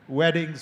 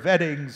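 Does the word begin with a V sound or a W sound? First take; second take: W sound; V sound. First: The word begins with a W sound. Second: The word begins with a V sound.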